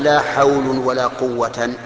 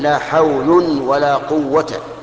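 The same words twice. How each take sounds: First: The last word ends in -an with nunation. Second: The last word ends in a plain -a vowel. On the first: The speaker calls it wrong. "ولا تقل" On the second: The speaker calls it right. "فتكون ألغيت لا في الأولى وأعملتها في الثانية"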